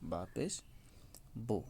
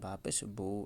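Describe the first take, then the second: First: The final vowel is said short and quick. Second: The final vowel is drawn out long. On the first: The speaker calls it right. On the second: The speaker calls it wrong.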